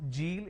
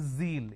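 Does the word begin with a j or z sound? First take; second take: j; z. First: It begins with a j sound. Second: It begins with a z sound. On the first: The speaker calls it wrong. "replace the z with a j" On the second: The speaker calls it right. "It's a z sound"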